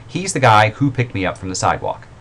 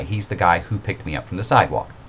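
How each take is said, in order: First: "who" lifted and leaned on, louder; stress on who. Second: Said in the usual way. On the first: Shown as a demonstration. Teacher reading an example sentence, leaning on "who". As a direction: point out "who" as the clause opener. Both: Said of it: "In this one, it's a little different".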